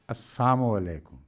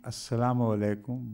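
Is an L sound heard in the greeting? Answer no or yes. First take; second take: no; yes. First: The L sound is dropped from the greeting. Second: The L sound is clearly pronounced in the greeting. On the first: It wishes destruction upon the listener. "but Assalamu alaikum" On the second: It wishes peace upon the listener. "they were not saying Assalamu alaikum"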